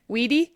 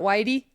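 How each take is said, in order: First: The ending is said with an 'ee' vowel. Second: The ending is said with an 'eye' vowel. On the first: The speaker calls it right. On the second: The speaker calls it wrong. "Not Whitey?"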